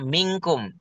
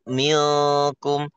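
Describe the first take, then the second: First: The n is said as a nasal ng sound. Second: The n is said like an l sound. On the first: The speaker calls it right. "Maka benar-benar eng" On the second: The speaker calls it wrong. "jangan jangan gini"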